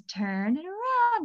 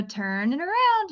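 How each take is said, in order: First: Put-on slow, higher little-kid copy; child repeating the therapist's instruction; kid echoing. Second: Put-on slow, higher, clear instruction to the kid; therapist prompt. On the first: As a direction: parrot the words back like a small child. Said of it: "And he goes". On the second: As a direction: model the phrase for him, slowly. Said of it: "So I go".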